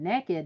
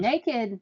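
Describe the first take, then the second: First: The word is pronounced 'neck-id'. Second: The word is pronounced 'nay-kid'. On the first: The person has no clothes on and is up to something. "N E K K I D ... you're up to something" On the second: The person simply has no clothes on. "naked means you don't have clothes on"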